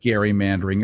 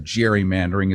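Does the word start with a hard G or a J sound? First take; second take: hard G; J sound. First: The word begins with a hard G sound. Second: The word begins with a J sound. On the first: This is the original form, from the name Gary. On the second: This is the form used today.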